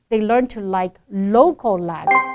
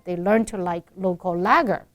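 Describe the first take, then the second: First: The stress falls on the word local. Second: The stress falls on the word lager. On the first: The speaker calls it right. "emphasize the first word in ninety-nine percent of the cases" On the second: The speaker calls it wrong. "she's reversing the emphasis"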